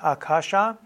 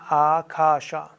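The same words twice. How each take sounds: First: The first two vowels are short. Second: The first two vowels are long. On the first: The speaker calls it wrong. "Nicht Akasha" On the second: The speaker calls it right. "die ersten beiden A's sind lang"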